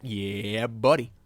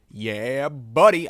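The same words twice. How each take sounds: First: Said in the usual way. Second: Loud, hyped yeah buddy; big celebratory yell; excited cheer. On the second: Acted. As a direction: shout it out like a proud fan. Cheering own artwork louder.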